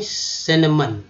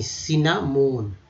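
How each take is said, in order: First: सिनेमन said "sin-a-mun" with short vowels; correct pronunciation. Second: सिनामोन said slowly as "si-na-mon"; common wrong form. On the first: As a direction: give the pure form सिनेमन. (शुद्ध उच्चारण: सिनेमन) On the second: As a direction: show the everyday mispronunciation. (गलत उच्चारण: सिनामोन) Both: Shown as a demonstration. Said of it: "और शुद्ध करते हैं सिनेमन".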